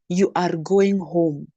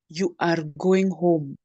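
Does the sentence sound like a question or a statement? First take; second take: statement; statement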